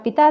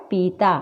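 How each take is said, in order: First: "पिता" with a short, light first vowel. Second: "पीता" with a long, weighted ee. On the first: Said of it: "इसके विपरीत होती है". ("पिता" में छोटी इ) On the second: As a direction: stretch the first vowel of "पीता". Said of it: "ज़्यादा जोर देकर होता है". ("पीता" में बड़ी ई, ज़ोर देकर) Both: Shown as a demonstration.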